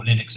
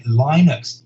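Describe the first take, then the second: First: Linux with a short i, as in lin; alternative Linux pronunciation. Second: Linux with a long i, as in line. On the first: Engineer adding how some people pronounce it, Linux as LIN-ux. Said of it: "as some people pronounce it". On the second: Engineer listing what is coming to microcontrollers, Linux pronounced LINE-ux. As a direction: say Linux as "LYE-nuks". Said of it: "or Linux as some people pronounce it". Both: Shown as a demonstration.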